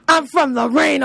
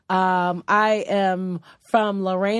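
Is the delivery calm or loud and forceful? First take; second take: loud and forceful; calm. First: It is said loudly with forceful energy. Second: It is said calmly at normal volume. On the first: The speaker calls it right. "You said you was going to say it with your chest" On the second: The speaker calls it wrong. "You didn't say it with your chest"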